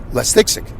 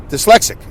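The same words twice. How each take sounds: First: "less dyslexic" run together as "lestixic"; mispronounced word. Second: Said in the usual way. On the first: Shown as a demonstration. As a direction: muddle "less dyslexic" into "les-tix-ic". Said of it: "you would say less dyslexic". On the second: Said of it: "then you won't say".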